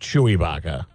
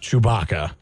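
First: The name is said like 'Ibaka'. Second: The name is said the usual way. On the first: The speaker calls it wrong. "not Chewbacca" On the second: The speaker calls it right. "His government name, if you will, is Chewbacca"

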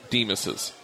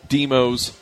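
First: The name ends with an extra 'iz' syllable. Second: The name ends without an extra final syllable. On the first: It shows ownership of the building. "so it is now Demas's" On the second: It is just the owner's last name. "it was Demos before because that's his last name"

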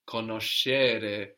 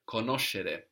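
First: The stress is not on the third-last syllable. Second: The stress is on the third-last syllable. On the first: The speaker calls it wrong. "Not conoscere" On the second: The speaker calls it right. "we have the accent third from the end"

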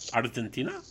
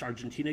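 First: It is said with a foreign accent. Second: It is said with a plain English accent.

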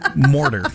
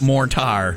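First: It sounds like one single word, mortar. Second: It sounds like two separate words, more tar. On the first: The speaker calls it right. "The stuff between bricks is just one word" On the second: The speaker calls it wrong. "Not mortar"

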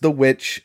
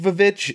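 First: The double letter is read as a w sound. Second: The double letter is read as a v sound. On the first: The speaker calls it right. "It is pronounced The Witch" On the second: The speaker calls it wrong. "It is not pronounced Vavitch"

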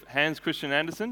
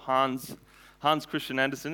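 First: The name is said the plain English way. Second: The name is said closer to Danish. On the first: The speaker calls it wrong. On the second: The speaker calls it right. "it's probably a closer pronunciation"

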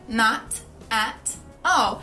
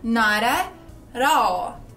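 First: The T sounds are crisp, British-style stops. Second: The T sounds are flapped, American-style, like R. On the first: "que é o jeito que o britânico diria" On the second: "um nativo norte-americano diria nada, porque aquele T vira um R"

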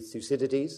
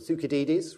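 First: The name has an anglicized English pronunciation. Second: The name has a Greek-style pronunciation. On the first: "is that right, for Greeks in the audience?" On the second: "Or Thucydides, rather, for the Greeks"

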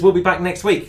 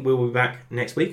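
First: It is said firmly, with authority. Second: It is said hesitantly, without confidence.

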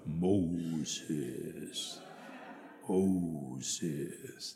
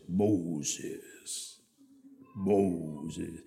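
First: It is said slowed down. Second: It is said at a normal speed.

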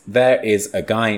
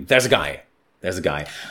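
First: The words 'there is' are said in full. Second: The words 'there is' are contracted and swallowed. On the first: The speaker calls it wrong. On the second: The speaker calls it right. "Contract and eat. Eat those words"

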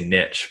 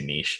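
First: It is said the American way. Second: It is said the Canadian way.

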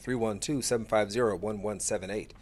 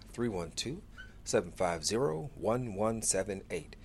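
First: The number is said at a normal, quicker pace. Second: The number is said more slowly.

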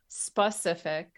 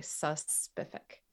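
First: The word starts with a plain 'sp' sound. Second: The word starts with an added 'sus' sound. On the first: The speaker calls it right. "it's specific" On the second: The speaker calls it wrong. "But they say suspific"

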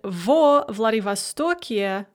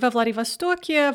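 First: The vowel in the preposition is full. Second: The vowel in the preposition is reduced.

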